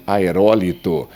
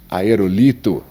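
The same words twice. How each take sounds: First: Aerólito com a tônica no RÓ; pronúncia correta. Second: Aerolito com a tônica errada no LI; silabada. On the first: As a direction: diga aerólito acentuando "ró", a antepenúltima. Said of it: "o certo seria". (aerólito como proparoxítona, RÓ forte) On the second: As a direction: diga aerolito acentuando "li", a penúltima. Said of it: "isso é a silabada". (aerolito pronunciado como paroxítona, força no LI) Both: Shown as a demonstration.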